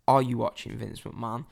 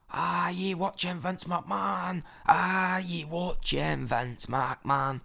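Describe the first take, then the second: First: Put-on understated retelling of a shouted chant, in own accent; retold shout. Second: Put-on slow, drawn-out drunken Scottish chant; drunk Scottish guy. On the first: Helping the drunk fan's chant along, mildly retold shout. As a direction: report your own chant without really shouting. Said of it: "top of my voice". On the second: Drunk Scottish fan trying to start a chant, slow Scottish accent. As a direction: imitate a drunk Scot struggling to start a chant, stretched out. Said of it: "Drunk Scottish guy next to me is trying miserably".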